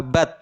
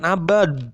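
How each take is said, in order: First: The final consonant sounds like a voiceless t. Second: The final consonant sounds like a voiced d. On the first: The speaker calls it right. "Yang mudahnya adalah abad" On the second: The speaker calls it wrong. "bukan abad. Ribet ya"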